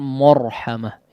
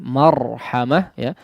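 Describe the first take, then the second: First: The first vowel is a rounded 'o'. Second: The first vowel is a clear, open 'a'. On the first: The speaker calls it wrong. "jangan sampai menjadi terdengar morhamah" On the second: The speaker calls it right. "Huruf mim yang berharga fathah sering terpengaruh dengan ketebalan huruf ra"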